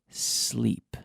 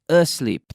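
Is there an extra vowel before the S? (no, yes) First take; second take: no; yes. First: The word starts directly with the S sound. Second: A short vowel is added before the S. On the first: The speaker calls it right. "we have to remember to say sleep" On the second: The speaker calls it wrong. "not asleep. ... There's no e in front of the sleep"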